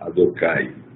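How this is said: Said in Sephardi pronunciation, ending in 'ai'. "Então existe a pronúncia sefaradi"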